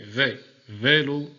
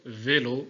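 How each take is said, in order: First: "V, vélo" said slowly and louder, the V split off, then the é held closed; slow closed é demo. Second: Said in the usual way. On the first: Shown as a demonstration. Teacher to pupils, showing the closed é in "vélo" slowly. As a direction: spell out the V, then stretch "vélo" with a tight closed é. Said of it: "Le son ici est fermé". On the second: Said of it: "On entend un son fermé".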